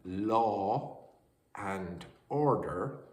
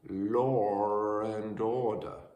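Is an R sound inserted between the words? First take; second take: no; yes. First: No sound is added between law and and. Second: An R sound is added between law and and.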